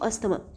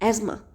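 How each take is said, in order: First: The middle is said with an 's-th' sound. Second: The middle is said with a 'z' sound. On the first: "अस्थमा ही बोलेंगे" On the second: "correct pronunciation एजमा"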